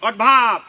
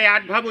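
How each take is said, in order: First: "অডভাব" opening on a rounded "aw", loud on "ভাব"; শেখানো উচ্চারণ. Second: "অ্যাডভার্ব" with an open "a" as in cat at the start; ভুল উচ্চারণের নমুনা. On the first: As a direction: model "অডভাব" firmly, with "aw" rather than "a". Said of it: "অড আসতে ভাব ধরে বলো". ("অডভাব"-এর শুরুতে "অ", "ভাব" জোরে) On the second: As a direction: say "অ্যাডভার্ব" starting with a short "ad" sound. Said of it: "অ্যাডভার্ব উচ্চারণ হবে না". ("অ্যাডভার্ব"-এর শুরুতে "অ্যা" ধ্বনি) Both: Shown as a demonstration.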